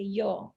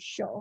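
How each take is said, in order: First: The word begins with a y sound. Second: The word begins with a sh sound. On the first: This is how most people say it. "usually people say yo" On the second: This is how it is said in Argentina. "in Argentina they say show"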